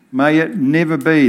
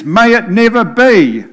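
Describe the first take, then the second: First: Said in the usual way. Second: Paul's words rung out high and loud; emphatic. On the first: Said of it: "That's emphatic". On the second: Acted. Preacher quoting Paul, emphatic and loud. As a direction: thunder out the apostle's emphatic cry. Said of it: "In fact, he is emphatic".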